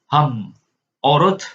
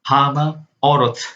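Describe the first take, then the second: First: No vowel follows the first syllable. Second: An extra vowel follows the first syllable. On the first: The speaker calls it wrong. "bukan ham orot" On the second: The speaker calls it right. "melainkan hama orot"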